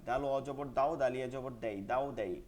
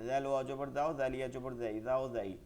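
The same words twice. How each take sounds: No difference in how they are said.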